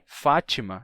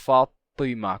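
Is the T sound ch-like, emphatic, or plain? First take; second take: ch-like; emphatic. First: The T sounds like a ch sound. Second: The T is a deep, emphatic sound. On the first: This is a regional variant of the adapted form. "ou até mesmo com Tchê" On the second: This is the original form in the source language. "com to"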